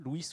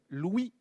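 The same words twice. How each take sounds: First: It ends with a stressed, audible final s. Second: It ends on the vowel, with no final s. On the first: This is how the name was said in the past. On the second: This is how the name is said today.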